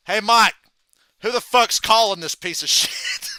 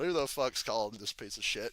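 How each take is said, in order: First: Raised, much louder mock call to the referee; retold shout for all to hear. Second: Lower, softer retold question; understated quote, dropped in pitch and volume; subdued retelling. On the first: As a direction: holler it across the ring, imitating a wrestler. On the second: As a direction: repeat the line low, without the shout. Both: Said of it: "Punk just says out loud".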